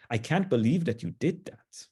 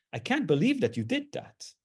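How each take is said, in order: First: Disappointed. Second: Impressed, praising tone; admiring. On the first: Lecturer scolding someone who went against norms, disappointed. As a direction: let down, disapproving tone. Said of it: "it can also mean disappointment". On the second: Lecturer praising a friend who finished a hard task, admiring. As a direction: say it like you're in awe of a friend. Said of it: "it might refer to a type of admiration". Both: Shown as a demonstration.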